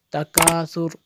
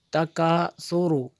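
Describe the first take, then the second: First: Teacher shows how to stop on तकासुर, crisp; pausal form takasur. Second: Ending vowel voiced, falling; teacher reads तकासुरु with the final u; full ending takasuru. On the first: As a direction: stop on तकासुर, final vowel dropped. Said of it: "ऐसे इसको पढ़ेंगे". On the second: Teacher to students, reading the full form clearly. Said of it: "यहाँ पे अगर वक्फ करेंगे". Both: Shown as a demonstration.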